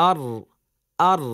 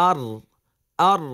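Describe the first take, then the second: No difference in how they are said.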